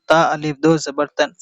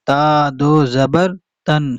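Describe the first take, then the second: First: "अलिफ" voiced as a separate word after "ता"; mistaken reading with alif. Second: "ता" goes directly to "दो", no "अलिफ" spoken; silent alif. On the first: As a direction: quickly read out "अलिफ" between "ता" and "दो". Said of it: "इस तरीके से पढ़ना ठीक नहीं है". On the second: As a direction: read "ता दो" straight through, leaving the alif silent. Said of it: "direct पढ़ेंगे". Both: Shown as a demonstration.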